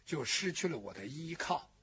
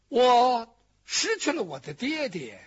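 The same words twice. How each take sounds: First: 失 leaned on, then the line drops much softer and lower; softly dropping after stressing 失; quiet grief on 失. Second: Stressing 失 as a loud lament; grieving stress on 失. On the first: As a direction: let 失 sink into a soft, fading lament. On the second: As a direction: cry out 失 in grief, louder. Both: Acted. Lament, paired lines on 失.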